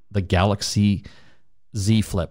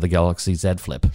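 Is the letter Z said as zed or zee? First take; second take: zee; zed. First: Z is said the American way, as zee. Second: Z is said the Canadian way, as zed.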